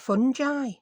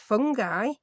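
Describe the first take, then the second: First: The middle consonant is a soft J sound. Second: The middle consonant is a hard G sound. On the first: "this American lady were pronouncing it fungi" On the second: "I always thought it was pronounced fungi"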